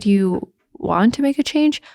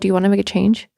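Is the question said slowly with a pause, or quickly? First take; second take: slowly; quickly. First: It is said slowly with a deliberate pause. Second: It is said quickly without any pause. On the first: The listener takes in the question. The speaker calls it right. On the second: The listener does not take in the question. The speaker calls it wrong.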